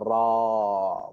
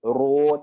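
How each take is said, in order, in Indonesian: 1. Vokalnya bunyi 'ah' terbuka. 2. Vokalnya bunyi 'oh' bulat. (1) "sebutan yang tepat adalah Ra" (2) "tidak ada Ro"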